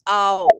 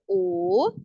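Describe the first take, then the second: First: The vowel glides into an 'ow' sound. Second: The vowel is a plain, steady 'o'. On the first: The speaker calls it right. "it's ow" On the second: The speaker calls it wrong. "So it's not o"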